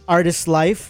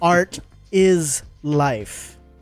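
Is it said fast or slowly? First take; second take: fast; slowly. First: It is said fast, run together. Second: It is said slowly, word by word.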